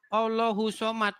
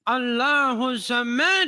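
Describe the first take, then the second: First: It is read with a plain Indonesian-style pronunciation. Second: It is read with a careful Arabic-style pronunciation. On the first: The speaker calls it wrong. "Saya bacanya begini" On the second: The speaker calls it right. "Bacanya harus begini"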